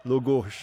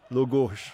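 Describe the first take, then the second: First: The word is said with o vowels. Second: The word is said with o vowels.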